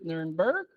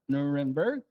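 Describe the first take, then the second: First: The name is pronounced the German way. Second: The name is pronounced the American way.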